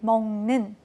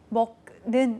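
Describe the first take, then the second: First: The final consonant becomes a nasal ng sound. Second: The final consonant is a hard k sound. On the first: The speaker calls it right. "받침에 있었던 기억이 이응으로 바뀌고 있습니다" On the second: The speaker calls it wrong. "먹는 으로 읽지 않으실 겁니다"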